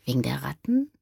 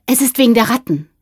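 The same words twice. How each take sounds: First: Soft rising question on "Wegen der Ratten"; "Wegen der Ratten" as a hushed, puzzled query. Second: Fast, high blurt; quick, raised-voice confession; hurried. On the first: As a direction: echo "Wegen der Ratten" quietly, lifting the end. Man echoes the secret questioningly. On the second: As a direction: rush out the secret. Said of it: "sagte Jürgen da schnell". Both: A narrator's reading.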